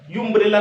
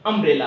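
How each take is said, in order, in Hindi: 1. यह शब्द 'yoo' ध्वनि से शुरू होता है। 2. यह शब्द 'uh' ध्वनि से शुरू होता है। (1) "यू अम्ब्रेला नहीं है" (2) "आ से शुरू हुआ"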